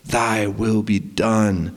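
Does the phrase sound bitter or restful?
restful. It sounds calm and trusting. The speaker trusts willingly. The speaker calls it right. "with a trusting restfulness"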